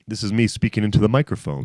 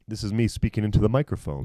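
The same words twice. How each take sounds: First: The voice sounds processed and brighter. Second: The voice sounds dry and dark in tone.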